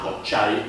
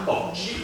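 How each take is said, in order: First: The final vowel is an 'eye' sound. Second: The final vowel is a plain 'ee' sound. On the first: The speaker calls it right. "la I si pronuncia ai" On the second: The speaker calls it wrong. "non si pronuncerà cocci"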